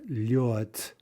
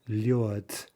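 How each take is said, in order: First: The word ends with a voiceless t sound. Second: The same.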